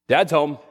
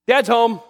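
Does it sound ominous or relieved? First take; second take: ominous; relieved. First: It sounds ominous, like a warning of trouble. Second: It sounds relieved, like help has arrived.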